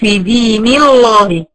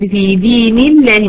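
First: The L in Allah is full and heavy. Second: The L in Allah is light and thin. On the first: The speaker calls it wrong. "ما قلتش" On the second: The speaker calls it right. "فرققت لام لفظ الجلالة، قلت"

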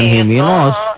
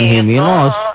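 First: The s sound is heavy and emphatic. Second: The s sound is heavy and emphatic.

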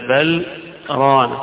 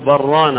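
First: A brief breathless pause separates the two words. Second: The two words run together without any pause. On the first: The words are kept apart so they are not heard as one word. "زي السكتة الأخرى" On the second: The words are joined with no break. "على الوصل من غير سكت"

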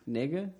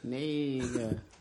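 First: The word is said at a faster pace. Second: The word is said at a slower pace.

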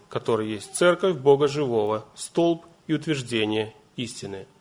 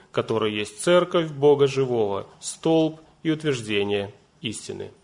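Both takes have the same delivery.

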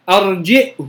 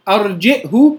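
First: The final vowel after the h is lengthened. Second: The final vowel after the h is short. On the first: "بالصلة" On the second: "بالقصر"

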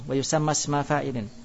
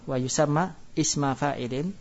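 First: The words run together without a glottal stop. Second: A pause and glottal stop come before isma. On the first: "kalau enggak bernapas langsung" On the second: "kalau dibaca berhenti"

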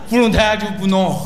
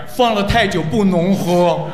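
First: The phrase is run together quickly. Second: The phrase is spoken slowly and clearly. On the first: It sounds like a French word. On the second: It is plain Chinese.

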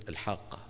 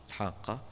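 Both takes have the same delivery.

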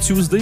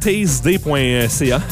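First: The first syllable sounds like 'too'. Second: The first syllable sounds like 'tase'. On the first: The speaker calls it right. "lui, il prononce Tuesday" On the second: The speaker calls it wrong. "le jeu de mots marche moins avec Tasday"

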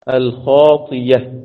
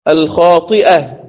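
First: The middle sound is a y sound. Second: The middle sound is a glottal stop. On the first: "تبقى الخاطية" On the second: "همزة مفتوحة وقبلها كسر"

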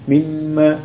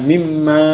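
First: The final vowel is kept short. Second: The final vowel is drawn out long. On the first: The speaker calls it right. "Tapi mimma" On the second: The speaker calls it wrong. "bukan mimma"

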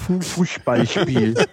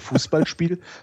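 First: The word is said muffled, as with corks in cheeks. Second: The word is said in a normal clear voice. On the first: "Du nimmst einfach zwei Flaschenkorken und steckst sie in die Wangen" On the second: "sagst du eben nicht zum Beispiel Fußballspiel"

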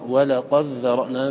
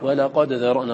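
First: The d merges completely into the dh. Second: The d is pronounced clearly before the dh. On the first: This is how other readers recite it. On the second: This is the speaker's own reading tradition.

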